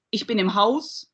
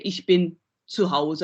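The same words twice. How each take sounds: First: Said in the usual way. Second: Hause said with audible final e; set phrase with final e. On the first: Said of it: "I don't use the E". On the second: Shown as a demonstration. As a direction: keep the e at the end of Hause. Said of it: "I would say".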